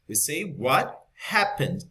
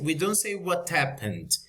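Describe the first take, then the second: First: The H in 'happened' is pronounced. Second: The H in 'happened' is dropped. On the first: The speaker calls it right. "because happen is a verb" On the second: The speaker calls it wrong. "We don't say"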